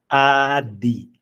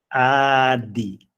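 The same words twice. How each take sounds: Both takes have the same delivery.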